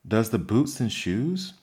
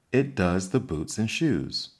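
First: Puzzled echo of "Does the boots and shoes?" rising on "boots"; wondering. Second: Grave, solemn pronouncement of "It does the boots and shoes". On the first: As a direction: repeat it back in disbelief, rising. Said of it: "she repeated in a wondering tone". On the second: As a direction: say it like a serious fact. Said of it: "the Gryphon replied very solemnly". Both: A narrator's reading.

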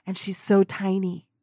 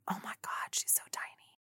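First: Said in the usual way. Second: Hushed, breathless whisper of amazement; awed whisper. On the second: Retold or imitated. Starstruck fan whispering about Kim Kardashian. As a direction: whisper it like you can't believe your eyes.

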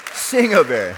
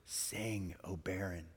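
First: Loud, high exclamation of the verse; triumphant shout. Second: Soft, tender voicing of the verse; hushed scripture reading. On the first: Retold or imitated. Preacher celebrating that the Lord answered, triumphant shout. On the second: Wife reading the first verse aloud, hushed. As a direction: read it quietly, letting each word land. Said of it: "she begins to read the very first verse".

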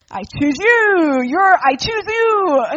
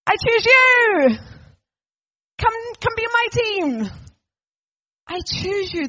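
First: Put-on loud, slow, higher kid captain calling his pick; eager team captain. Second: Loud, much higher, slow and swelling invitation; fervent call. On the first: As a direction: shout the pick across the playground, slow and proud. Team captain picking kids. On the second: Acted. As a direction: call out with open arms, then ease off. Jesus calling each one.

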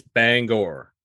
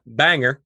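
First: "Bangor" drawn out slowly as bang-gore; slow, corrective "Bangor" with a weighted second syllable; correct Bangor pronunciation. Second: "Banger" with a reduced -er ending; "Banger" as outsiders mistakenly say it, weak second syllable; wrong Bangor pronunciation. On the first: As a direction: stretch "Bangor", full -gor on the end. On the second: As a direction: say "Banger" to rhyme with hanger. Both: Shown as a demonstration. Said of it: "It's not Banger".

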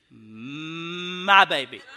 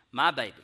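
First: Very slow, swelling to a loud finish; drawn-out indignation. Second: Said in the usual way. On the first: Retold or imitated. Parent protesting to the mother about his pushed child, drawn-out indignation. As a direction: hold the first word long, then swell.

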